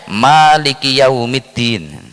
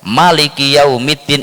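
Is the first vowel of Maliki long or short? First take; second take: long; short. First: The first vowel of Maliki is drawn out long. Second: The first vowel of Maliki is kept short.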